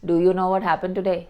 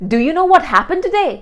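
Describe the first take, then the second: First: The pitch stays level and monotone throughout. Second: The pitch goes up and down throughout. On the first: The speaker calls it wrong. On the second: The speaker calls it right. "you take it up sometimes, then bring it down again"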